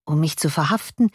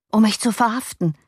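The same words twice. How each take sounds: First: "verhaften" rising as a question. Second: Higher-pitched, falling answer; alarmed statement. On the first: Master doubting the arrest, questioning rise on "verhaften". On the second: Servant and master on the arrest, alarmed statement. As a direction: state the threat anxiously. Arrest announced, then questioned back. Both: A narrator's reading.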